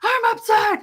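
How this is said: It is said in an angry yell.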